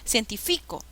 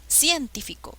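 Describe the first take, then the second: First: The stress is on the third syllable. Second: The stress is on the first syllable.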